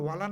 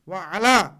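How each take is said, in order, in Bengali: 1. শব্দ দুটি একসাথে মিশে একটি হয়ে যায়। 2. শব্দ দুটি আলাদাভাবে বলা হয়। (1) "ওয়ালা না" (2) "এইটাই হচ্ছে শুদ্ধ উচ্চারণ"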